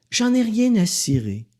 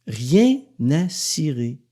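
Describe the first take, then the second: First: Said in the usual way. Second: Rien à cirer said slowly, hitting rien; slow emphatic repeat. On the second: Shown as a demonstration. Repeating his line to listeners, slow and emphatic. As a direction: drag out Rien à cirer to drive it home.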